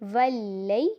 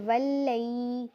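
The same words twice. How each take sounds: First: The ya sound is kept short. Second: The ya sound is drawn out long. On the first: The speaker calls it right. "ये भी लंबा नहीं किया जाएगा" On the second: The speaker calls it wrong. "इसको ऐसे नहीं पढ़ देंगे वल्लई तो ये गलत बन जाएगा"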